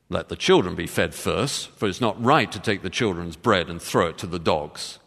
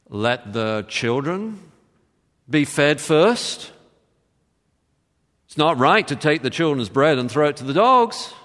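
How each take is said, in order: First: It is said in a harsh, cold tone. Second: It is said in a mocking, ironic tone.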